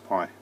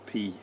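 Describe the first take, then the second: First: The vowel sounds like the word 'pie'. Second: The vowel sounds like the word 'pee'.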